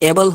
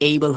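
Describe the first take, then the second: First: The first vowel is a plain short 'eh' sound. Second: The first vowel glides like 'ay'. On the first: The speaker calls it wrong. "এটা কি এবল হবে নাকি এইবল হবে" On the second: The speaker calls it right. "এইবল হবে"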